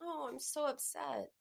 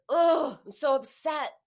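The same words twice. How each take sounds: First: Soft, moaning lament; softer groaning take of the same words; feeling it quietly. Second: Loud, high anguished cry of upset; emotional outcry, much louder and higher; feeling it out loud. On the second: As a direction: really let the upset burst out. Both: Shown as a demonstration. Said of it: "Feeling it is".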